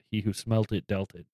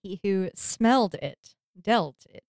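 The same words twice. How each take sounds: First: "smelt" said firmly with a hard T; stress on smelt. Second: Slower, "smelled" said fully; stress on smelled. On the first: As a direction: lean on "smelt" with the T. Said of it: "for saying smelt". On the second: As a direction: correct it to "smelled", slowly. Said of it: "Smelled, I believe, is the right terminology". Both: Shown as a demonstration.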